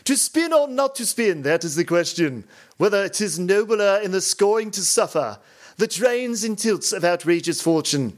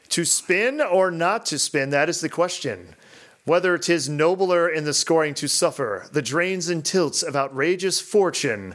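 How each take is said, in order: First: It is read in a put-on theatrical accent. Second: It is read in a plain, natural accent.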